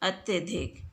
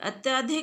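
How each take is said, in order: First: The vowel after 'ty' is a short a. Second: The vowel after 'ty' is a long aa. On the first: The speaker calls it right. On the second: The speaker calls it wrong.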